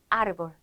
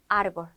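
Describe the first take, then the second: No difference in how they are said.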